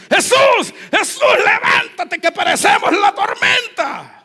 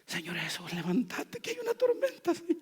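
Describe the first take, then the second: First: High, loud, desperate shout; panicked shouting. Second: Much softer, gentle plea; calm and soft. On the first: Disciples running to wake Jesus in the storm, terrified shout. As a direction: scream for help in terror. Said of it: "Los tipos fueron corriendo". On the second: Pastor imagining disciples calmly waking Jesus, soft polite plea. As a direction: wake him politely, no urgency. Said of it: "¿Será que lo hicieron así?". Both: Acted.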